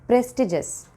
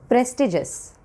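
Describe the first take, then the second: Both takes have the same delivery.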